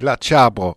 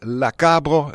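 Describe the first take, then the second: First: The word starts with a ch sound. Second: The word starts with a hard k sound. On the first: This is the local Vivaro-Alpine form. "nous autres on dit « la tchabro »" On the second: This is the Provençal dialect form. "En Provence, par exemple, ils disent « la cabro »"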